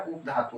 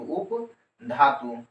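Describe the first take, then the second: First: Said in the usual way. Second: उपधातु stretched long and very slow; drawn out slowly. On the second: Shown as a demonstration. Teacher drilling उपधातु for the class, very slow. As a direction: lengthen every sound of उपधातु for dictation. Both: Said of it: "इधर क्या बोलने का है".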